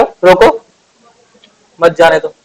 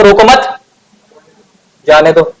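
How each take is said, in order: First: रोको, then a clear break before मत जाने दो; pause after रोको. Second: रोको मत together, then a clear break before जाने दो; pause after मत. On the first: Teacher shows students the comma after रोको, with a pause after रोको. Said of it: "अगर मैंने "रोको" के बाद कॉमा लगाया तो". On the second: Teacher shows students the comma after मत, with a pause after रोको मत. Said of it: "रोको मत" के बाद कॉमा लगाया तो". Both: Shown as a demonstration.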